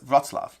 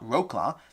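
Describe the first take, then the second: First: The name is said with a Polish pronunciation. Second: The name is said with an anglicized pronunciation. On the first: The speaker calls it right. "that's Wroclaw. I think I'm saying it roughly correctly" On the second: The speaker calls it wrong. "that's not Wroclaw"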